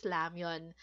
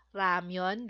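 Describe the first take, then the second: First: "ramyeon" said with an L-like onset, lamyeon; Korean L-like version. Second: "ramyeon" with a clear R as spelled; romanized R version. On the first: Teacher contrasting the Korean pronunciation with the spelling. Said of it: "ang pronunciation po nila is ramyeon". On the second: Teacher showing the spelled R pronunciation, lower. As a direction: read "ramyeon" as romanization shows, with R. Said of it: "letter R yung nakalagay". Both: Shown as a demonstration.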